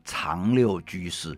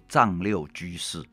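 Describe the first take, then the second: First: The first syllable starts with a c sound. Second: The first syllable starts with a z sound. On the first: The name means hiding the six parts away. The speaker calls it right. "那应该讲长六居士" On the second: The name is read as the 藏 of 西藏. The speaker calls it wrong. "叫做丈六居士"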